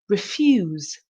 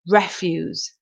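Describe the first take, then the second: First: The stress is on the second syllable. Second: The stress is on the first syllable. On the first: To say no to something. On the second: Rubbish or waste.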